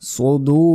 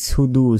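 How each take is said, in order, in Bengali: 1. প্রথম ব্যঞ্জনটি ভারী, এমফেটিক s। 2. প্রথম ব্যঞ্জনটি সাধারণ, হালকা s। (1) "সৎ পেশ হয় সো" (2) "এখানে অনেকে বলি সুদু, সুদু নয়"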